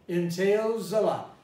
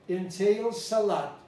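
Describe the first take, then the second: First: The word entails ends with a buzzing z sound. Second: The word entails ends with a hissing s sound. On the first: The speaker calls it right. "It's a Z" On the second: The speaker calls it wrong. "if you pronounce it as a C, you would pronounce it with the foreign accent"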